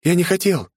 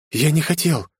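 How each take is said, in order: First: High, frightened stammer again, voice gone thin; boy repeating his denial in shock; terrified babbling. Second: High, frightened stammer; boy stammering over the body he killed; terrified babbling. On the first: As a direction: repeat it in horror, barely holding on. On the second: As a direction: babble it out in horror. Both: Acted. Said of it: "пролепетал Андре в ужасе".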